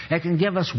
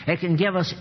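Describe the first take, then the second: No difference in how they are said.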